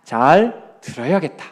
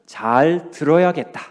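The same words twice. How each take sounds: First: 잘 hit first, slow, rising at the end; slow repeat leaning on 잘; stress on 잘. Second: 들어야겠다 weighted and falling at the end; slow 잘 들어야겠다 with weight on 들어야겠다; stress on 들어야겠다. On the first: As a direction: lean on 잘 and let it lift. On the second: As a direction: land firmly on 들어야겠다, slow. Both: Shown as a demonstration. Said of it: "뭐라고요?".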